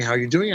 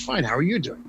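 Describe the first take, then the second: First: Said in the usual way. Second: Fine, then "you" hit with a falling tune; polite return question, weight on "you"; stress on YOU. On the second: Shown as a demonstration. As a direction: turn it back, landing on "you". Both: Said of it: "this goes back to the politeness part".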